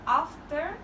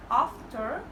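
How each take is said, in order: First: "After" with a short front a; short first vowel in "After", as in cat; Northern after. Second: "after" with a long ah; long first vowel in "after", like ahfter; Southern after. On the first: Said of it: "Northern accent". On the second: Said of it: "is a Southern accent". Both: Shown as a demonstration.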